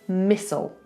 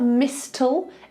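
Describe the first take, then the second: First: The t sound is silent in the middle. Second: The t sound is pronounced in the middle. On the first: The speaker calls it right. "Forget the T" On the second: The speaker calls it wrong. "it's not mistle"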